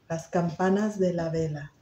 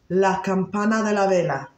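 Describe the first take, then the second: First: The final S sounds are pronounced clearly. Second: The final S sounds are left off.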